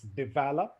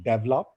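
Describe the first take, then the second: First: 'develop' stressed on the second syllable, de-VEL-op; correct stress. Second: 'develop' stressed on the first syllable, DEV-lop; Indian stress. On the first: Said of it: "There's a stress on the second syllable". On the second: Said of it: "Most of the Indians have the tendency to speak develop". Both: Shown as a demonstration.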